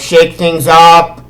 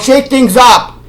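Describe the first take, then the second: First: It is said in a lukewarm, unexcited way. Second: It is said in an excited, enthusiastic way. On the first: The reaction is only mildly positive. "three years ago, it was eh" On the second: The reaction is eagerly positive. "but now it's like yay"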